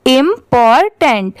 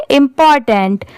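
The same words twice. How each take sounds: First: Syllable by syllable. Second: important run together as one word; read at speed. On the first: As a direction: sound out important as im, por, tent. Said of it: "इन तीनों को मिला देंगे". (Important को धीरे-धीरे, टुकड़ों में) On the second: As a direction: say important quickly, no breaks between syllables. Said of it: "इसे speed में पढ़ेंगे". (इम्पॉर्टेंट एक साथ, स्पीड में) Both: Shown as a demonstration.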